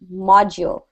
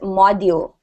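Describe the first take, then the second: First: The middle D is a soft J-like sound. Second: The middle D is a hard D sound. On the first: The speaker calls it right. "The D is said like a G" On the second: The speaker calls it wrong. "We don't say this word as module"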